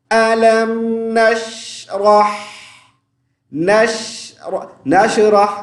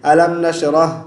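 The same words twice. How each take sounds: First: नशरह slow, with a throaty Arabic ह; Quranic recitation. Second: नशरह with a plain Hindi ह; wrong Arabic h. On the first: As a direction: recite नशरह drawing out the शीन. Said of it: "अब मैं इसको पढ़ता हूँ, आप सुने". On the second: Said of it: "हा की जगह हम क्या पढ़ते हैं? हा पढ़ते हैं". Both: Shown as a demonstration.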